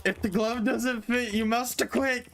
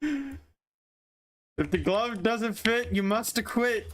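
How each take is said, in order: First: High mock lawyer plea, quicker; courtroom quote. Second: High, very slow mock lawyer plea; courtroom quote. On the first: Repeating the glove line to a friend, high mock lawyer. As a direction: repeat the defence line with a grin. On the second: Quoting the glove line to dodge blame, as a high slow mock lawyer. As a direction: intone it like a defence lawyer.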